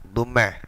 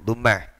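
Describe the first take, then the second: The two takes are said the same way.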